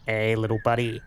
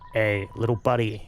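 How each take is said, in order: First: A settled, fuller version of the character voice. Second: A first, unsettled try at a character voice. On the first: The speaker calls it right. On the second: The speaker calls it wrong.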